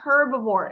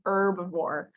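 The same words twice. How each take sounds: First: The word begins with an audible h sound. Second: The word begins without any h sound. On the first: The speaker calls it wrong. "It's not herbivore" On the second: The speaker calls it right. "It's silent"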